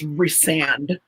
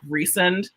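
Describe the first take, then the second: First: The name ends with the sound 'sand'. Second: The name sounds like the word 'recent'. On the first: The speaker calls it right. "And no, it's resand" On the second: The speaker calls it wrong. "pronouncing it kind of like recent"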